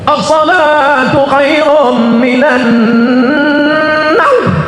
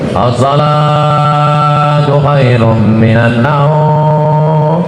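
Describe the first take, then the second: First: It is called out in a lively, energetic way. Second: It is called out in a flat, low-energy way. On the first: The dawn prayer is full of people. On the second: Only the few regulars come to the dawn prayer.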